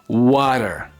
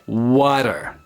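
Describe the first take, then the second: First: It is said in an American accent. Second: The same.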